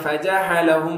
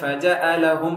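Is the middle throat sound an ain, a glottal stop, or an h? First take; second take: h; glottal stop. First: The middle consonant is a breathy h sound. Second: The middle consonant is a sharp glottal stop. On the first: "ஹ மாதிரி ஃபஜஅலஹும் அப்படி சொல்லக்கூடாது" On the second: "ஹம்சா மாதிரி ஃபஜஅலஹும் அப்படி சொல்லக்கூடாது"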